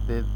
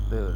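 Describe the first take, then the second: No difference in how they are said.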